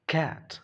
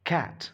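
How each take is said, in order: First: The word begins with a K sound. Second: The same.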